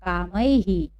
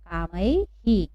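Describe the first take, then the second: First: कामैहि read at normal pace with a clear ऐ then हि; कामैहि spoken whole as kaamai-hi; model reading. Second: कामैहि drawn out slowly, syllable by syllable, ending on हि; कामैहि said very slowly as kaa-mai-hi; slow model reading. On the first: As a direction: say कामैहि smoothly, ending on हि. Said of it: "तो इसको हम कुछ इस तरह से पढ़ेंगे". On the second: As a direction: spell out कामैहि slowly for students. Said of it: "क्या पढ़ेंगे?". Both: Shown as a demonstration.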